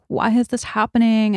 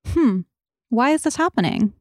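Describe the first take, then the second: First: It sounds fearful and resisting. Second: It sounds open and curious.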